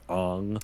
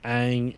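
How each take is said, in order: First: The vowel is a back 'o' sound. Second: The vowel is a front 'a' sound. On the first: This is how the live-action film says the name. The speaker calls it wrong. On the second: This is how the cartoon says the name. The speaker calls it right. "that's not how they pronounce it in the show"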